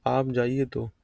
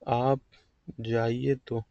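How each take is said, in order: First: Said in the usual way. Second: आप alone, long break, then जाइए तो; pause after आप. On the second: Shown as a demonstration. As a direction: split आप off from जाइए तो. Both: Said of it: "दो तरीके से हो जाओ".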